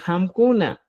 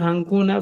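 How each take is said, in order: First: "hamkuna" with lips closed on M; new M before K. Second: "hankuna" with NG before the K; old NG before K. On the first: Teacher gives learners the replacement, "hamkuna" with clear M. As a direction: say "hamkuna" as ham-ku-na. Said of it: "vas a decir hamkuna". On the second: Teacher cites the form to replace, "hankuna" with NG. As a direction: say "hankuna" as hang-ku-na. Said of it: "En vez de decir hankuna". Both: Shown as a demonstration.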